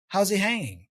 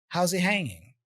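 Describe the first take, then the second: Both takes have the same delivery.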